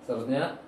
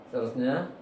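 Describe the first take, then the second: Both takes have the same delivery.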